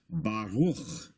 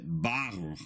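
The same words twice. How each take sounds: First: Baruch with the stress on the final syllable, -ruch; end-stressed Baruch, second syllable held; stress on the last syllable. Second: Baruch with the first syllable, Ba, stressed; front-stressed Baruch, BA-ruch. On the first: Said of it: "is normally pronounced Baruch". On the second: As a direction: lean on the Ba of Baruch, let -ruch drop. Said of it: "with this symbol over the letter Bet". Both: Shown as a demonstration.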